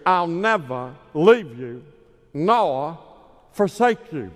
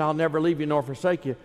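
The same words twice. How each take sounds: First: Slow, louder evangelist boom on "I'll never leave you nor forsake you"; Billy Graham impression. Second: Said in the usual way. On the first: Preacher imitating Billy Graham quoting Hebrews, slow and booming. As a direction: draw out "forsake" like a revival preacher. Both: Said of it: "like Billy Graham would say".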